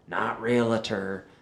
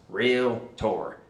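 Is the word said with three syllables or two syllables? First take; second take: three; two. First: The word is said with three syllables. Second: The word is said with two syllables. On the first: The speaker calls it wrong. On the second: The speaker calls it right. "it's two syllables"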